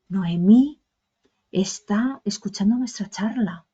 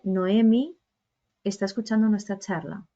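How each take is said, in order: First: It is said in a secretive, dramatic tone. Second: It is said in a plain, informative tone. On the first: It is a surprising secret being revealed. "la primera emoción era como de secreto, como de, ¿no?, impacto" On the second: It is simply a piece of information. "el segundo simplemente era informaros"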